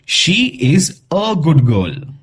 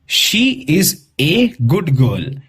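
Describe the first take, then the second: First: The article is said as a short 'uh'. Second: The article is said as a full 'ay'. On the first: The speaker calls it right. "हम इसे कैसे pronounce करेंगे?" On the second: The speaker calls it wrong. "ऐसे pronounce नहीं करेंगे"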